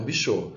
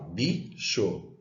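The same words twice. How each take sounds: First: Bichô wrongly stressed on final CHÔ; stress on last syllable. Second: Bicho split in two, stress on BI; stress on first syllable. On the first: Teacher showing the wrong stress to students, final CHÔ strong in bichô. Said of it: "e não bichô". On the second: Teacher showing the tonic syllable to students, stress on BI in bicho. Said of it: "então eu falo bicho e não bichô". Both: Shown as a demonstration.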